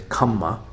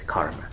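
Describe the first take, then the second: First: The middle is a doubled m sound, no r. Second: The middle is an r followed by m. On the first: This is the Pali form of the word. "in the Pali uh, pronunciation is Kamma" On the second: This is the Sanskrit form of the word. "and then in Sanskrit is Karma"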